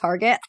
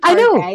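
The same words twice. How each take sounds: First: The name is said with a plain English ending. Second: The name is said with a French-style ending. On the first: It is the ordinary name of the store. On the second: It makes the store sound more upscale.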